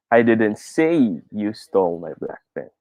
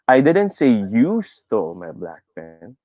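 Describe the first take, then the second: First: The word "say" carries the main stress. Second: The word "you" carries the main stress. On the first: "Let's try to put it on the third word" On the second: "The fourth word naman"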